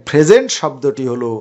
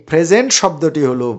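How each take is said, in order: The two takes are said the same way.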